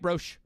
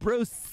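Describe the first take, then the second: First: The name ends with an sh sound. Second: The name ends with a hissing s sound. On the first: The speaker calls it wrong. "they do an S H at the end" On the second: The speaker calls it right. "it's like a snake"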